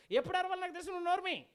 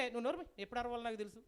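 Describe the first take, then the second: First: High, raised acted snapping back; mock-angry comeback, pitched up; irritated retort. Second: Understated brush-off as the dog; unbothered acted put-down, usual pitch; dismissive retort. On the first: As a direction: tell them off forcefully as the fed-up dog. Dog's retort replayed with more force. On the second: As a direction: shut the nagger down without raising your voice. Dog brushes off the nagging donkey.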